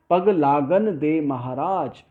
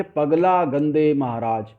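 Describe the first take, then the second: First: पग, लागन, दे, महाराज as separate slow words; intended word breaks. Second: पगला as one word, गंदे as one word, then Maharaj; misheard word breaks. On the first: Teacher quoting the song line as intended, careful word breaks. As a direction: keep पग apart from लागन. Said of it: "ये कहा गया". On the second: Teacher showing what listeners understood, misheard word breaks. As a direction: join पग and ला into पगला. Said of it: "अर्थ क्या निकला सामने वाले समझे". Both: Shown as a demonstration.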